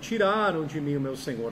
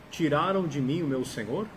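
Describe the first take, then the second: First: It is said with an exclaiming, asserting intonation. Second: It is said with a questioning intonation. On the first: The speaker is stating that it was taken. "Na exclamação está afirmando" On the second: The speaker is asking whether it was taken. "a mesma frase com interrogação"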